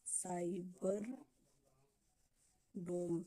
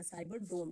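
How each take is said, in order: First: "cyber डोम" drawn out, word by word; slow dictation. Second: Said in the usual way. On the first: Shown as a demonstration. Teacher dictating the project name to students, slowly. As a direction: stretch "cyber", pause long, then "डोम".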